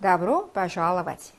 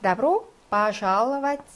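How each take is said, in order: First: Добро пожаловать said very slowly, Добро as da-bro-a with unstressed о as а; Добро пожаловать slowly, о in Добро reduced to а; slow model pronunciation. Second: Добро пожаловать drawn out, о in Добро sounding like а; Добро with а sound, very slow; slow demo pronunciation. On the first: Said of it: "러시아어로 어떻게 하죠?". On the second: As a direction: model Добро пожаловать syllable by syllable. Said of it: "강세가 없어서 얘가 아 발음 나는 거지". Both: Shown as a demonstration.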